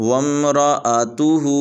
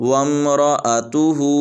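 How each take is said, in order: The two takes are said the same way.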